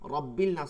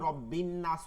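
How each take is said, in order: First: The L is pronounced before the N. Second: The L merges into a doubled N sound. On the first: The speaker calls it wrong. "রব্বিল নাস হয় না" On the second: The speaker calls it right. "কেন রব্বিন নাস হয়েছে, কারণ এটা নুন আছে"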